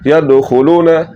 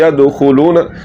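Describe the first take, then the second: No difference in how they are said.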